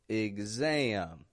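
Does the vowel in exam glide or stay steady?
glide. The stressed vowel glides with a twangy sound. The speaker calls it right.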